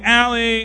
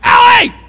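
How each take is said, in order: First: The name is called in a calm, ordinary tone. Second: The name is shouted in a stern, angry tone. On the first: An ordinary call with nothing wrong. "They can sense the tone whenever I call them" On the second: The child is in trouble. "This is like the fake version"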